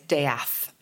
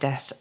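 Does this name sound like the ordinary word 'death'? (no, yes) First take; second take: no; yes. First: It is pronounced unlike the ordinary word death. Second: It is pronounced like the ordinary word death. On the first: The name avoids sounding like an unattractive word. "they put an apostrophe in or they change the pronunciation" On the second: The name sounds like an unattractive word. "instead of"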